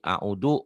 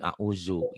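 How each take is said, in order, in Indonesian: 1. Konsonan tengahnya bunyi d biasa. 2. Konsonan tengahnya bunyi z biasa. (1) "audu orang Sunda" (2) "Orang Betawi jadi auzu"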